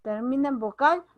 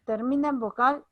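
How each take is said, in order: Both takes have the same delivery.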